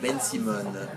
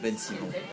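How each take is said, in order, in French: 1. Le nom « Ben Simon » est prononcé avec un accent du sud de la France. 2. Le nom « Ben Simon » est prononcé avec un accent français standard. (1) "dans le sud de la France, avec le petit accent" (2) "on dit une Ben Simon"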